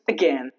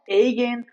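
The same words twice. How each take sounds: First: The first vowel is a short reduced schwa. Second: The first vowel is a full, long a sound. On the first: The speaker calls it right. "Just again" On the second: The speaker calls it wrong. "not again"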